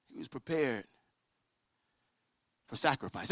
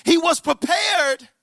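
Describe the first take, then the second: First: Low, very soft repetition; grave, near-whispered preaching; solemn hush. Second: Ringing preacher's cry; emphatic preaching. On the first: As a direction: let it land quietly. Same line repeated in a hush. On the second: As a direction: proclaim it, stretching every word. Preacher drives the climax home. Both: Real, not acted.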